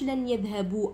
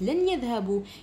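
First: The written final alif is pronounced aloud. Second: The written final alif is left silent. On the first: The speaker calls it wrong. "ما قلتش لن يذهبوا" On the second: The speaker calls it right. "قلت لن يذهبوا، كتبتها بصح ما قريتهاش"

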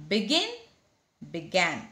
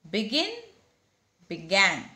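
The two takes are said the same way.

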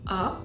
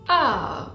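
First: The pitch stays high and level. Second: The pitch dips low and then rises. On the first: "on a le comme ça, donc par exemple, on va dire A" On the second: "On va avoir le comme ça, on va dire A"

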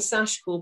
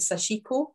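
First: The middle i vowel is barely pronounced. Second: The middle i vowel is clearly pronounced. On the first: The speaker calls it right. "I'm saying Sashiko because ... the I is actually barely pronounced" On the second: The speaker calls it wrong. "a lot of people pronounce it Sashiko"

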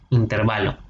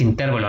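First: The stress falls on the syllable va. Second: The stress falls on the syllable ter. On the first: The speaker calls it right. "es una palabra grave o llana, por eso se le dice intervalo" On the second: The speaker calls it wrong. "no es una palabra esdrújula, no lleva acento"

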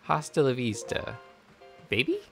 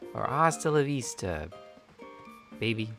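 First: The voice rises at the end. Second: The voice falls at the end.

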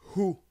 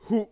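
First: The vowel ends openly without a glottal catch. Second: The vowel ends abruptly with a glottal catch. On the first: "La syllabe hou" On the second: "Avec le coup de glotte"

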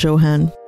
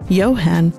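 First: The name begins with an English J sound. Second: The name begins with a German Y sound.

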